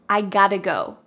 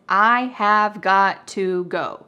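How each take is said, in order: First: 'Have' is dropped and 'got to' is reduced. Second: Every word is said fully, with no contraction. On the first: "we cut out the verb have completely" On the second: "Grammatical expression"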